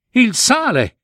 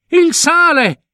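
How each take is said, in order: First: Il re grida "Il sale!" con gioia, voce molto più alta; "Il sale!" esclamato con gioia crescente, voce alta; esclamazione felice. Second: Il re ripete "Il sale!" ancora più in alto e più forte, quasi un grido di gioia; "Il sale!" strillato di gioia, voce altissima e un po' più forte; esclamazione felicissima. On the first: (il re ritrova il sale e grida "Il sale!" felice, voce alta) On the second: (il re, fuori di sé per la gioia, ripete "Il sale!" con un grido acuto) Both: A narrator's reading. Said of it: "esclamò felice il re".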